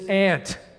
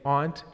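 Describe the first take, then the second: First: It sounds like the insect 'ant'. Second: It has the East Coast Maritime vowel.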